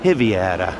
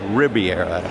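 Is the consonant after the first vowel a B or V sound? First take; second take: V; B. First: The middle consonant is said as a V. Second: The middle consonant is said as a B. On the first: The speaker calls it right. "the B is pronounced like a V" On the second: The speaker calls it wrong. "one would think it's"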